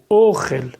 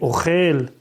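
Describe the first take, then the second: First: The stress is on the first syllable. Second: The stress is on the last syllable. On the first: It is a noun meaning food. "L'accent tonique sur le o" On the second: It is a verb meaning eats. "l'accent tonique est vers le bas"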